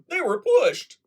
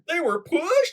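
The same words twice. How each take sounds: First: The voice falls at the end, like a statement. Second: The voice rises at the end, like a question. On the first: It states that they were pushed. "as opposed to" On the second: It asks whether they were pushed. "Yes, a question"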